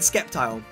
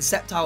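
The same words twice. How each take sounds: First: The word begins with a sk sound. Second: The word begins with a plain s sound. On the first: The speaker calls it wrong. "I used to call it Sceptile. But I've heard that that was incorrect" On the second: The speaker calls it right. "Sceptile was the correct way"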